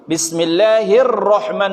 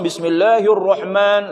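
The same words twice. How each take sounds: First: The sound starts light, then turns heavy. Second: The sound is heavy and rounded from the start. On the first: The speaker calls it right. "Tarkik dulu baru tabkhim" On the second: The speaker calls it wrong. "tidak boleh langsung Bismillahirrahman langsung moncong"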